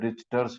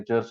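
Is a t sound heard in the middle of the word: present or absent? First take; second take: present; absent. First: A t sound is heard in the middle. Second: No t sound is heard in the middle. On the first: "इसको टी भी है बीच में" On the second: "टी silent रहता है, रिचर्स ही उसको बोलते हैं"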